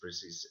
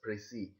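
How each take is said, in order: First: The word ends with an audible s sound. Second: The word ends in a vowel, with no s. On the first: The speaker calls it wrong. "many people pronounce it as Prezis. It is a wrong pronunciation" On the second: The speaker calls it right. "we have to pronounce it as Prezi"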